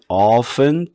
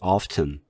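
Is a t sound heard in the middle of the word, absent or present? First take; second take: absent; present. First: It is said without any t sound. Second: It is said with a t sound. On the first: "t자 발음 없애고 발음을 하고요" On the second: "또 다른 발음은"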